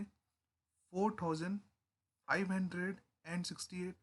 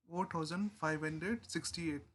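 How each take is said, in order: First: Slow demo reading. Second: Said in the usual way. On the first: Shown as a demonstration. Teacher showing students how to read the number, slowly. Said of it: "तो हम इसको कैसे pronounce करेंगे". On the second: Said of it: "इस तरह से करेंगे pronounce".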